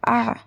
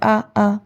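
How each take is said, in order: First: It is squeezed from the middle of the throat. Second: It starts with a light catch in the throat. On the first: The speaker calls it right. "थ्रोट का बीच वाला हिस्सा ... उससे जो है आप अदा करेंगे आइन" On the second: The speaker calls it wrong. "हमजा की तरह नहीं बोलेंगे"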